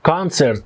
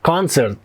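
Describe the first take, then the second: Both takes have the same delivery.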